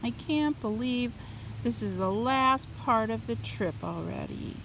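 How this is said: It is said in a sad, downcast tone. The speaker calls it right. "Does that sound more sad?"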